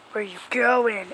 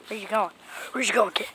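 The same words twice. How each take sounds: First: Said in the usual way. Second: Softly whispered question to the cat. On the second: Real, not acted. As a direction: whisper it so the cat won't bolt.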